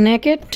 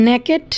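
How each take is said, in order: The two takes are said the same way.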